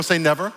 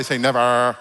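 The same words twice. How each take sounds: First: Said in the usual way. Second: Mock Valley accent on NEVER; Simi Valley accent. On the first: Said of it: "Say it like you're from a valley". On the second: Preacher getting congregation to say never, Simi Valley accent. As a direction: lean into a put-on Valley "never". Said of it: "Say it like you're from a valley, from, from Simi Valley".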